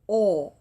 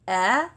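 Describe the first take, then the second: First: The sound is heavy, with the tongue back raised. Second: The sound is light, with the tongue back lowered.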